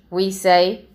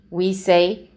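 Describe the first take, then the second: The two takes are said the same way.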